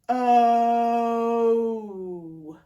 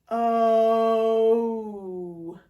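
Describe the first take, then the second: No difference in how they are said.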